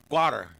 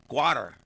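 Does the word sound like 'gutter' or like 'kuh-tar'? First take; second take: gutter; gutter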